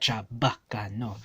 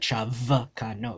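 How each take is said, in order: First: The second consonant is a b sound. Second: The second consonant is a v sound. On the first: The speaker calls it right. "It's a b" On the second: The speaker calls it wrong. "It never mixes the"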